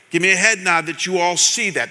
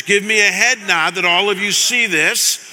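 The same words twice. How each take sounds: First: Said in the usual way. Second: "head nod" pressed harder, rising at the end; firmer repeat. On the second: Real, not acted. Pastor repeating the request after nobody nodded, firmer. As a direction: insist this time, push "head" a bit. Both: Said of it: "you didn't nod your heads".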